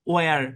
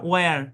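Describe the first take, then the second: The two takes are said the same way.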